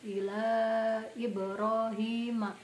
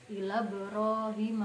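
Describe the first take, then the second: First: The i of Ibrahim is pronounced clearly. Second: The i of Ibrahim merges into ila. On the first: The speaker calls it right. "Ibrahim itu tetap jelas Ibrahim" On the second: The speaker calls it wrong. "bukan ila Ibrahim, bukan seperti itu"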